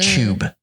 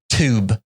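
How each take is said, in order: First: The word starts with a ch-like sound. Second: The word starts with a plain t sound. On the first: "We say t- tube, t- but it sounds like tube, C H U B" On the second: "they say they say they say lit, like the t- tube"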